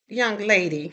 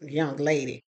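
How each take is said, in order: First: Imitating the mother. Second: Scornful echo. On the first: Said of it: "and she goes". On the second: Retold or imitated. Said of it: "And I'm thinking, first of all, I'm not a".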